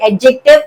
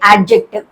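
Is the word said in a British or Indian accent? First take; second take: Indian; British. First: It is said in an Indian English accent. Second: It is said in a British English accent. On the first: "Indian English pronunciation ప్రకారం అయితే ఎడ్జెక్టివ్" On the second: "అదే British pronunciation ప్రకారం అయితే యాడ్జెక్టివ్"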